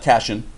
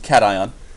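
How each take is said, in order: First: The word ends with a single 'shun' sound. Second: The word ends with a separate 'eye-on' sound. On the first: The speaker calls it wrong. "you don't say this is not cation" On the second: The speaker calls it right. "pronounce them with the ion at the end"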